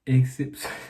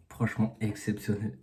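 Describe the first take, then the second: First: Said in the usual way. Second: Speaking quietly. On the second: Real, not acted. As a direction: keep it down, say it softly. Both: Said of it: "je peux pas parler fort".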